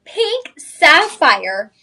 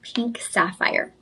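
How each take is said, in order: First: Loud, high, very drawn-out announcement; excited big reveal. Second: Slow, soft whisper; hushed reveal. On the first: Host repeating the reveal to shoppers, loud drawn-out excitement. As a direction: stretch each word out high and loud. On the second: Host revealing the stone after a drum roll, slow whisper. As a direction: whisper it like a secret unveiled. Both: Real, not acted.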